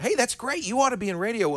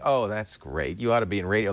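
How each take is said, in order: First: It sounds warm and encouraging. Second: It sounds dismissive, like get out of here.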